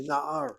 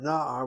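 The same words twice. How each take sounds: First: Na'ar as na-AR, weight on the end; short first syllable, accented second in na'ar; stress on last syllable. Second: Na'ar as NA-ar, first syllable strong and loud; accent on the first half of na'ar, ending light; stress on first syllable. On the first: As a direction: move the accent of na'ar onto AR. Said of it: "accent the last syllable". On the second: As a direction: punch the NA of na'ar. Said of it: "Because you see the vocalization". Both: Shown as a demonstration.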